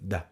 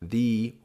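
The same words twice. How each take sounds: First: The vowel in 'the' is soft and reduced. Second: The vowel in 'the' is full and long. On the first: The speaker calls it right. "you're using this article in a quite soft way" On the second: The speaker calls it wrong. "it's not the"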